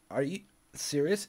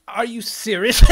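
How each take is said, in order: First: Said in the usual way. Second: Much higher and louder, a fed-up shout; exasperated outcry. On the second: Retold or imitated. Yelling at the internet in fed-up disbelief. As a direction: throw the question out in exasperation.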